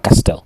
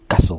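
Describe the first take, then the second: First: The t in the middle is pronounced. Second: The t in the middle is silent. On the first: The speaker calls it wrong. "On ne dit pas castel" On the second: The speaker calls it right.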